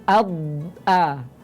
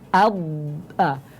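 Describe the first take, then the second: No difference in how they are said.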